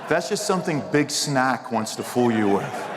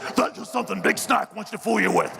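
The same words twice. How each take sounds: First: It is said in an ordinary speaking voice. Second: It is said in a put-on character voice. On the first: The speaker calls it wrong. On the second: The speaker calls it right.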